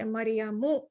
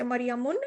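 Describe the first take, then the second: First: The word ends on a plain u vowel. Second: The word ends with an added n sound. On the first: The speaker calls it right. "you're going to say Maryamu" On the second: The speaker calls it wrong. "you're not going to say Maryamun"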